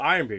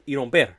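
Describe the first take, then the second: First: The name is said as plain English words. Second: The name is run together the Cuban way. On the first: "you don't call it Iron Beer" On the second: "if you're Cuban, ... You call it Iromber"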